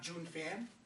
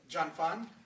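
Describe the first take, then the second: First: The first word sounds like 'June'. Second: The first word sounds like 'John'. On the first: The speaker calls it wrong. "it's not June" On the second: The speaker calls it right. "that's the correct pronunciation"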